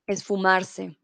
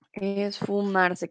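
First: Said in the usual way. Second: "esfumarse" drawn out slowly, every syllable clear; slowly spelled out. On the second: Shown as a demonstration. Teacher repeats the new word slowly for students, slow. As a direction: stretch "esfumarse" out slowly so students catch each sound.

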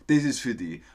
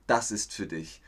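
First: Viennese dialect version; Viennese, with "die" for "dich"; Austrian dialect. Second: Said in the usual way. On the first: Shown as a demonstration. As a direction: say it in broad Austrian. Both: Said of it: "das ist der österreichische Dialekt".

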